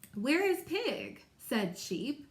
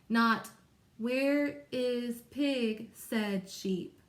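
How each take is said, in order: First: It is read with lively, expressive intonation. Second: It is read flatly, like a robot. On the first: The speaker calls it right. "I want to say" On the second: The speaker calls it wrong. "I'm not going to read it like a robot"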